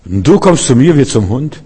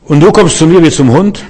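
First: A hint of a boastful giant, rising question; frecher Goliath. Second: Mocking giant's taunt, rising at the end; höhnender Goliath. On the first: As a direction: brag it but with a touch of fear under it. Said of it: "das große freche Reden". (angeberischer Goliath mit leiser Angst) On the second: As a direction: sneer it like a scornful giant. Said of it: "Das ist die Reaktion von Goliath". (spöttischer Goliath, höhnisch fragend)

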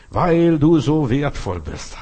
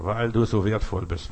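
First: Slow and louder, leaning on du; preacher stressing du, drawn out; slow emphatic repeat. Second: Said in the usual way. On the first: Acted. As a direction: drive the line home to the congregation.

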